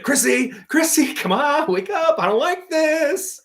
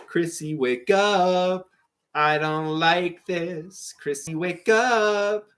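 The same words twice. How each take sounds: First: Very high, whiny pleading; high mock plea. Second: Slow, worried pleading. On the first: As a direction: squeak it out like a scared kid. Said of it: "And he's like". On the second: Acted. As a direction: coax her awake, slowly. Reciting Stranger Things scene.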